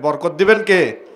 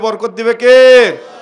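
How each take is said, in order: First: It is said at a normal volume. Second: It is said more loudly.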